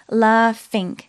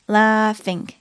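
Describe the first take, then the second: The two takes are said the same way.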